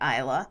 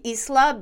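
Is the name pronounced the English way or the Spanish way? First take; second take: English; Spanish. First: The name is pronounced the English way. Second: The name is pronounced the Spanish way. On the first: "in English, most people are pronouncing it Isla" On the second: "It could be Isla"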